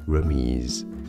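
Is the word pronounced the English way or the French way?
French. The word is pronounced the French way. "how it's said in French"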